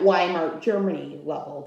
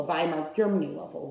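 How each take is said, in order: First: "Weimar" begun with a W, as in "wine"; "Weimar" starting like "why"; English W sound. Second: "Weimar" begun with a V, as in "vine"; "Weimar" starting like "vie"; German V sound. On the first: Says Weimar again with V sound. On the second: Corrects own W to German V. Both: Real, not acted.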